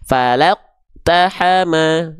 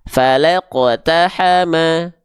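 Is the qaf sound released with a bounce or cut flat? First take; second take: flat; bounced. First: The qaf is cut off with no bounce. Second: The qaf is released with a small bounce. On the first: The speaker calls it wrong. "Itu nggak ada pantulannya, berarti ke keliru" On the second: The speaker calls it right. "harus ada pantulannya"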